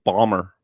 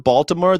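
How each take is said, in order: First: The name is shortened with no L. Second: The name is said in full with the L. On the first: This is how locals say it. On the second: This is how outsiders say it.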